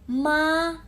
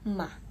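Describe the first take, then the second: First: The syllable is heavy and drawn out. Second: The syllable is quick, light and cut short.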